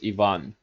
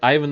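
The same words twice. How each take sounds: First: The stress is on the second syllable. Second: The stress is on the first syllable. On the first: The speaker calls it right. "It's not I, it's E, and then the main point is on the second syllable" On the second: The speaker calls it wrong. "Ivan is not a Russian name"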